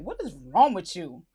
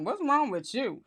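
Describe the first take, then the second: First: Low, deliberate reproach; stern alternative take. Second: Concerned-sounding alternative take. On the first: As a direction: ask it low, pressing on WRONG. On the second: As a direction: ask it gently, without the laugh. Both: Acted. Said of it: "how she meant it".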